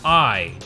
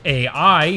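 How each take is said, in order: First: It is said as a single syllable. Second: It is spelled out as two separate letters. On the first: It is the form fans of the series use. "fans of the first game will often pronounce the title as AI" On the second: It stands for artificial intelligence. "can be read as is, with AI meaning artificial intelligence"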